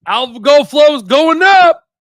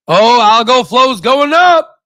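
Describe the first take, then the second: First: Excited shout. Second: Slow and drawn out, a bit higher; growing excitement. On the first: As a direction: shout the good news to the crowd. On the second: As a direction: let the good news dawn on you slowly. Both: Real, not acted.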